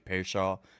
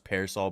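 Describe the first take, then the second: First: The middle consonant is an SH sound. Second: The middle consonant is a plain S sound. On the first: "some people say Pearshaw" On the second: "I always thought just Pearsall"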